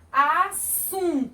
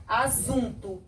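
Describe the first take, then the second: First: "Assunto" high and slow, by syllables, hissed s; som de S. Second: "assunto" with a voiced z; som de um S. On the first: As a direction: stretch "Assunto" as a-ssun-to. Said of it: "Eu falo assunto". ("Assunto" silabado, com som de S) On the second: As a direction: say "assunto" as a-zun-to. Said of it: "Se a tia botar só um S". ("assunto" com som de Z) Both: Shown as a demonstration.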